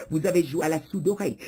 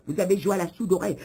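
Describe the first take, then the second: No difference in how they are said.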